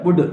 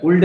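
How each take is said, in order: First: वुड with no L before the D; silent L. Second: वुल्ड with an L before the D; L wrongly sounded. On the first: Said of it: "एल नहीं बोला जाता है". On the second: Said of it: "वुल्ड नहीं बोला जाता है". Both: Shown as a demonstration.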